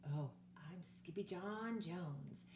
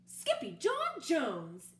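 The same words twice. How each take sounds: First: Slow, softer rhyming chant; sung, bounce along to your own little rhyme; sung, bouncy singsong. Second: Slow, louder stern call of the full name; exclaiming mother. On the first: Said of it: "beginning to bounce". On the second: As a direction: call your son by his full name in alarm. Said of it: "exclaimed Mama". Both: Acted.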